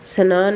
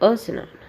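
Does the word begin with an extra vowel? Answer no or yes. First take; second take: no; yes. First: It starts directly with the 's' cluster. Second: An extra 'a' vowel comes before the cluster. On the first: The speaker calls it right. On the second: The speaker calls it wrong.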